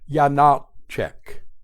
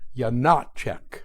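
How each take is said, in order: First: The stress is on the first and middle syllables. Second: The stress is on the middle syllable only. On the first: "place an accent as well on the first syllable" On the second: "place an accent on the middle syllable"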